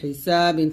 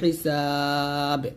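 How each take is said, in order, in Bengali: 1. শব্দটি -in প্রত্যয় দিয়ে শেষ হয়। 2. শব্দটি তার শেষ ব্যঞ্জনধ্বনি দিয়ে শেষ হয়।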